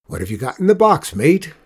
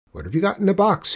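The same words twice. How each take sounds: First: Louder, fast challenging captain voice; hearty, loud old captain questioning; loud sea captain. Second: Quick, higher, demanding driver voice; fast, pitched-up questioning bus driver; gruff bus driver. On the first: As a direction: call him out at the gangplank. Sea captain challenges Juan boarding. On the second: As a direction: grill the boy like a wary driver. Suspicious bus driver questions Juan. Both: Acted.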